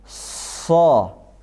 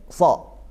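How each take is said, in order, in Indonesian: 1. Konsonannya mendesis kuat. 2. Konsonannya tidak mendesis. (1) "Sofirnya itu kalau huruf shad menjadi so" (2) "kalau si sofirnya hilang, bunyinya jadi so"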